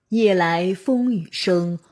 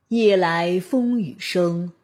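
Both takes have the same delivery.

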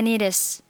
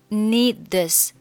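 First: The d of need links into the next vowel. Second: The final d of need is not pronounced. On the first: "选择need 和后面的this 进行一个连读" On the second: "你可以选择need 末尾的不发音"

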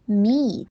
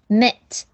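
First: The vowel is long, like ee. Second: The vowel is short, like in met. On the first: The speaker calls it right. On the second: The speaker calls it wrong.

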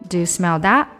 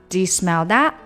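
Both takes have the same delivery.

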